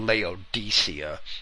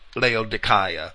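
First: The name is said in the common church pronunciation. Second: The name is said in a less common pronunciation.

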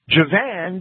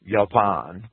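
First: The name begins with a J sound. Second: The name begins with a Y sound. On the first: The speaker calls it wrong. "that J is not a J" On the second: The speaker calls it right. "It's actually a Y"

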